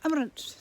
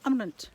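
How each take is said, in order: First: The final vowel is swallowed and barely heard. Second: The same.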